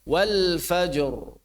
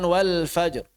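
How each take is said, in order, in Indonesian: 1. Kedua konsonan akhir diucapkan jelas dan tegas. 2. Gugus konsonan akhir sebagian tersembunyi dan samar.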